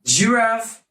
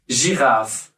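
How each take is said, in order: First: Said in the usual way. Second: French "giraffe", zh start; French girafe. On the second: Shown as a demonstration. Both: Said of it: "Giraffe in French is girafe".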